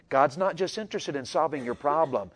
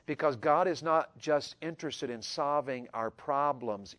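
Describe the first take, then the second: First: NOT leaned on in God's not just interested; stress on not. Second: Because God is not just interested in solving our problems, said slowly with GOD stressed; slow emphatic line. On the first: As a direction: hit NOT. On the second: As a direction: lean on GOD and slow right down. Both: Shown as a demonstration. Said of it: "I want to say that again".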